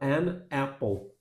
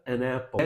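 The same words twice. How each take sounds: First: The two words are said separately. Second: The two words are joined together. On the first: The speaker calls it wrong. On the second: The speaker calls it right.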